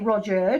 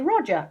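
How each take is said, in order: First: The last syllable has a full 'er' vowel. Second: The last syllable has a weak schwa vowel. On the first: The speaker calls it wrong. "We don't say Roger" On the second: The speaker calls it right. "We say Roger"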